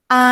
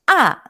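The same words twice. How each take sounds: First: The pitch stays level and fairly high. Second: The pitch falls sharply from high to low. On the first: "dilafalkan dengan datar dan agak tinggi" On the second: "dilafalkan dengan turun seperti orang membentak"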